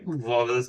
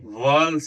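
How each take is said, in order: First: The word is said as two full syllables. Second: The word is said as one short syllable. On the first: The speaker calls it wrong. "वॉवल्स नहीं बोले जाते" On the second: The speaker calls it right. "वॉल्स है"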